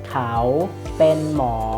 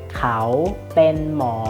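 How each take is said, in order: No difference in how they are said.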